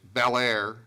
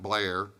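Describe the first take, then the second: First: The name is said with two syllables. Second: The name is said with one syllable. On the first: The speaker calls it right. "It's Bel Air" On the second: The speaker calls it wrong. "not Blair"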